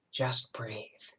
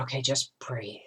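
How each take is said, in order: First: Softer still, whispering it away; fading whisper. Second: Breathless whisper, calming herself down. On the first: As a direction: let the whisper die out as you calm down. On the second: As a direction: whisper it to get through the pain. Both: Retold or imitated. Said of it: "I thought".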